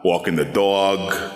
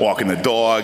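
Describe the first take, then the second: First: The phrase is spoken at a slower pace. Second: The phrase is spoken at a quicker pace. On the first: "then you gotta slow it down" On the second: "generic, like cartoon New York"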